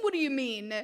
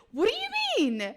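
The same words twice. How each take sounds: First: Said in the usual way. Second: High, loud indignant question; pitched-up affronted what do you mean; offended disbelief, raised up. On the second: Real, not acted. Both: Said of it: "Did I just question myself?".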